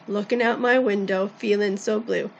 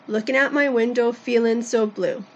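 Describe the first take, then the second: Both takes have the same delivery.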